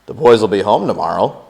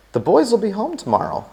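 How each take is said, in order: First: Said again with more volume, to wake him; a little louder. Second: Said in the usual way. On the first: A narrator's reading. May repeating herself to her sleeping husband, louder. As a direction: raise the voice a notch over a sleeping man. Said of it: "a little more loudly". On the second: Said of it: "she said aloud".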